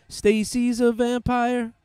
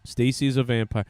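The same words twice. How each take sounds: First: Slow, higher mock disbelief; incredulous question. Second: Said in the usual way. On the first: Real, not acted. Streamer questioning chat's vampire claim in slow disbelief. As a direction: drag it out like you can't believe it.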